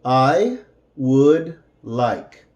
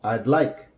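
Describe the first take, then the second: First: "I would like" said slowly, each word apart; careful, slowed teaching delivery; slow separated words. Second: Said in the usual way. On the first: Shown as a demonstration. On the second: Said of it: "and then with the contraction".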